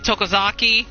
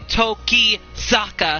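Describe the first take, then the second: First: The name ends with a 'ki' sound. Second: The name ends with a 'ka' sound. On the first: The speaker calls it wrong. "I keep calling... Calling him Tokozaki" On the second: The speaker calls it right. "but it's actually Tokizaka"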